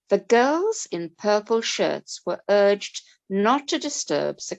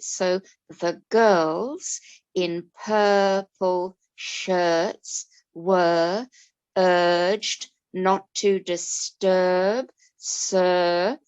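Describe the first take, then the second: First: It is read at a natural, even pace. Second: It is read slowly with the er sounds stretched.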